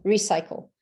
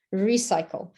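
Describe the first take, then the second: No difference in how they are said.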